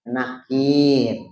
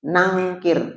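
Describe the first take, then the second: First: No 'ng' sound comes before the k. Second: An 'ng' sound comes before the k. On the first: The speaker calls it right. "yang betul bukan nangkir, nakir" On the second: The speaker calls it wrong. "salah sebut"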